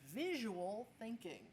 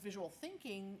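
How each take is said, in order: First: The word visual carries the stress. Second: The word thinking carries the stress. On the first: The focus is on the drawing side. "a lot of people teach the visual side" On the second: The focus is on organizing and structuring ideas. "the emphasis is on the thinking"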